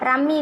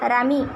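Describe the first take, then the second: First: The m sound is held long. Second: The m sound is short. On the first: The speaker calls it wrong. "ரம்மி இல்லைங்க" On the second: The speaker calls it right. "இல்லைங்க ரமி"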